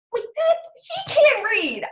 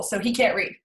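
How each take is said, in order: First: Much higher, louder protest; indignant outburst. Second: Said in the usual way. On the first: Real, not acted. Mother protesting about her son's reading, indignant. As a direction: burst out in high-pitched disbelief. Same words repeated as outburst.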